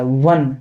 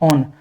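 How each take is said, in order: First: The word begins with a w sound. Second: The word begins with an open o vowel. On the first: The speaker calls it right. "इसकी ध्वनि जो निकल रही है तो वो व की निकल रही है" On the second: The speaker calls it wrong. "ना कि ऑन"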